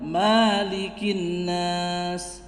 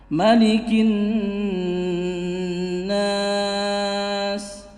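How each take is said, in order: First: The vowel after the m is drawn out long. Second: The vowel after the m is kept short. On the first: The speaker calls it wrong. "bukan malikin nas, bukan ya, bukan seperti itu" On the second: The speaker calls it right. "malikin nas tanpa dipanjangkan huruf mimnya"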